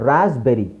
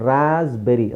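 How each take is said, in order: The two takes are said the same way.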